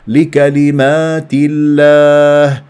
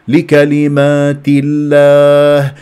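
Both takes have the same delivery.

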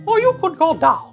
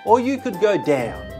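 First: It is said in a high Mickey Mouse voice. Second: It is said in a normal speaking voice.

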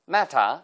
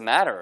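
First: It is said with a British accent. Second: It is said with an American accent. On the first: "영국식 발음이면" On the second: "미국식 발음이면"

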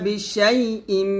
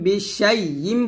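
Both takes have the same delivery.

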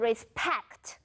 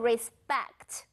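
First: The p after s is a puffed p. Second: The p after s sounds like a soft b. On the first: The speaker calls it wrong. "我们不会念成是respect，你的这个p 呢如果会发成p p p 的这个音" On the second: The speaker calls it right. "我们会把它发成是有声子音B 的音，我们会念成是respect"

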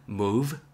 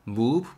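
First: The final sound has teeth on the lower lip. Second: The final sound lacks teeth on the lower lip. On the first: The speaker calls it right. "토끼 이빨로 입술 아래 긁어주세요" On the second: The speaker calls it wrong. "move 보다는"

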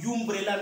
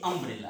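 First: The word begins with a 'yoo' sound. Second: The word begins with an 'uh' sound. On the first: The speaker calls it wrong. "ये यू का उच्चारण यूम्ब्रेला नहीं है" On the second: The speaker calls it right. "ये अम्ब्रेला है"

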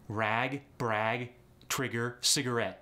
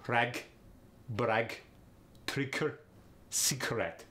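First: It is said in a plain accent. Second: It is said in a Russian accent.

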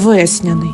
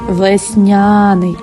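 First: The stress falls on the first syllable. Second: The stress falls on the second syllable. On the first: The speaker calls it wrong. "а не весняний" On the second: The speaker calls it right. "Ти весняний"

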